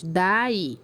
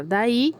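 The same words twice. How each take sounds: First: "Daí" said as two separate syllables, da-í; split into syllables. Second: Said in the usual way. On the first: Shown as a demonstration. Teacher showing pupils how to separate syllables, "Daí" syllable by syllable. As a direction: break "Daí" between the a and the í. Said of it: "e separar em sílabas". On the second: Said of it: "você vai pegar a palavra".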